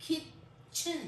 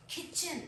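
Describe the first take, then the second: First: "kitchen" broken as kit, chen with a gap; split into two syllables. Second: Said in the usual way. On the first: Shown as a demonstration. Teacher shows the two syllables, "kitchen" in two separate pieces. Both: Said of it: "इसके दो syllables होंगे".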